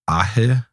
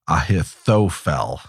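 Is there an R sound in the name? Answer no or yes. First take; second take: yes; no. First: The name is said with an R sound. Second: The name is said without an R sound. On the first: "I might be throwing an R in there" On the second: "That seems worse"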